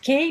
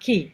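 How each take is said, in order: First: The vowel sounds like the 'ay' in 'day'. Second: The vowel sounds like the 'ee' in 'see'. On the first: The speaker calls it wrong. "not K" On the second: The speaker calls it right. "but key"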